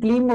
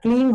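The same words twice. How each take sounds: First: The word is pronounced in Sanskrit style. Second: The word is pronounced in Bengali style. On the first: "ওটা সংস্কৃততে উচ্চারণ" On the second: "বাংলা উচ্চারণ"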